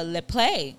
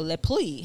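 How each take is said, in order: First: Lepley with a long "ay" at the end; Lepley as LEP-lay. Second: Lepley with an "ee" sound at the end; Lepley as LEP-lee. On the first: Trying out the baby daddy's surname, Lepley said as LEP-lay. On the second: Correcting the baby daddy's surname, Lepley said as LEP-lee. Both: Shown as a demonstration. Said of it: "however you pronounce that".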